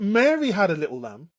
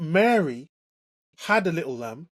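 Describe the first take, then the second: First: The stress is on the word Mary. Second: The stress is on the word had.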